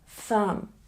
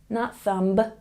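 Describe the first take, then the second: First: The final B is silent. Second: The final B is pronounced. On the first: The speaker calls it right. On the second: The speaker calls it wrong.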